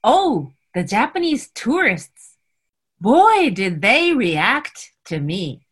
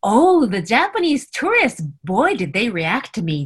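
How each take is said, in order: First: It is said slowly and carefully. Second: It is said at normal conversational speed.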